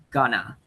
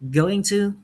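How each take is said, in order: First: The words are shortened and run together. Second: Both words are said fully and separately.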